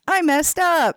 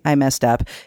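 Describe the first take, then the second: First: It sounds happy. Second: It sounds sad and down.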